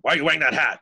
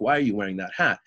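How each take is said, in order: First: The question is asked in a confrontational tone. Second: The question is asked in a neutral tone.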